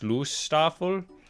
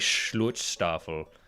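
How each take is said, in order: First: The middle has no t sound. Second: The middle has a t sound.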